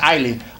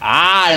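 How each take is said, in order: First: The vowel is said short. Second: The vowel is drawn out long. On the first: The speaker calls it wrong. "not just I" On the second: The speaker calls it right. "elongated first syllable"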